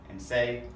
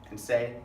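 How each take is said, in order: No difference in how they are said.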